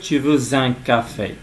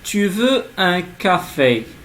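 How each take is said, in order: First: A Z sound links veux to un. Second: Veux and un are said without a linking Z. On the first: The speaker calls it wrong. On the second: The speaker calls it right.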